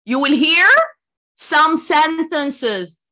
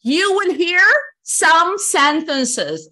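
First: Some sentences drawn out very slowly again; slow emphatic repeat. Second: Some sentences drawn out very slowly; slow emphatic. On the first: Teacher repeating the instruction slowly and loudly. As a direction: stretch each word, some sentences. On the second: Teacher spelling out instructions slowly and loudly. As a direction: stretch some sentences for the class. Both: Shown as a demonstration. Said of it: "repeat instruction".

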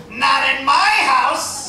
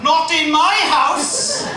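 First: Slow, loud, higher American outrage; American indignation. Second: Slow, loud, high Welsh version; the same line in a thick Welsh voice; Welsh attempt. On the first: Retold or imitated. Comic imitates an American, slow and loud. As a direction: drawl it like an offended American host. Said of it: "they'll go". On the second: Comic tries the American line in Welsh, slow and loud. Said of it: "now, if I try that".

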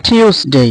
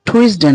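First: "টিউসডে" as aspirated tyoos-dey; corrected pronunciation. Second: "টুইসডে" as tu-is-de; wrong pronunciation. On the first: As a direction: model "টিউসডে" higher, with yoo and long day. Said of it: "এটার উচ্চারণ হচ্ছে". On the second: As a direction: say "টুইসডে" with oo-i and short de. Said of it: "টুইসডে না". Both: Shown as a demonstration.

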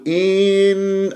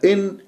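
First: إن with the i dragged long, like een; overstretched vowel, wrong. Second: إن with the i cut very short; snatched vowel, wrong. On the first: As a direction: stretch the opening vowel of إن. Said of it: "فممكن أمطها أقول إن". (إن بمط كسرة الهمزة) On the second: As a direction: clip the opening vowel of إن. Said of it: "أو أختلسها". (إن باختلاس كسرة الهمزة) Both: Shown as a demonstration.

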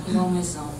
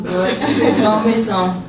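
First: Said in the usual way. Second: Loud laugh breaking through the words. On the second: Real, not acted. Player laughing to reporter about missing shots, loud laughing.

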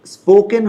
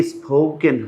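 First: স্পোকেন with an unaspirated p; first pronunciation option. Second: স্পোকেন with a puff after the p; alternative pronunciation option. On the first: Teacher quizzing learners on which is right, plain p. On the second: Teacher quizzing learners on which is right, aspirated p. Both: Shown as a demonstration. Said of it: "কোনটা হবে?".

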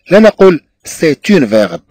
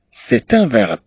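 First: "اون" said as un, the wrong article; wrong form demo. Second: "ان" said as an, the right article; correct form demo. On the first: Teacher to students, showing the wrong article "اون". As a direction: stress the mistaken "اون" in "سي اون فيرب". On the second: Teacher to students, showing the correct article "ان". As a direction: calmly give the right "ان" in "سي ان فيرب". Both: Shown as a demonstration.

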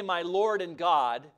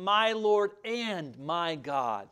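First: Said in the usual way. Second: Slow, weighty "My Lord and my God" with each "my" leaned on; stress on both my. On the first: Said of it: "He didn't say". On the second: Shown as a demonstration. Preacher showing Thomas's emphasis on "my" twice. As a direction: draw out the "my" before Lord and before God. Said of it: "He emphasized it by saying".

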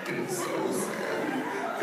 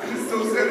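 First: Sad whisper. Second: Mock sadness. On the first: Pretend. First take whispered. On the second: Second take voiced.

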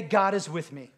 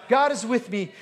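First: Said in the usual way. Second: Declared. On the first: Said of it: "Somebody say". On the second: Shown as a demonstration. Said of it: "You need to declare that".

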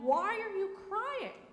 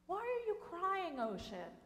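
First: Much higher, full voice, pleading question; higher insistent ask. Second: Higher, then dropping soft on ocean; softer repeat. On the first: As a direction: ask it high and earnest, wanting an answer. God asks the ocean again. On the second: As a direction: ask again, quieter and more tender. God asks again, softer. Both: A narrator's reading.

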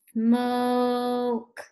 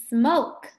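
First: SMOKE with the O held long; drawn-out slow. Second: Said in the usual way. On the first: Shown as a demonstration. Teacher asking what pupils hear, drawn-out slow SMOKE. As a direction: stretch SMOKE out on one steady note. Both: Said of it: "Say it slow".

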